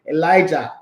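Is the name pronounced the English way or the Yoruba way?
English. The name is said with an English pronunciation.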